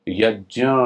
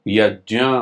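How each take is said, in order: The two takes are said the same way.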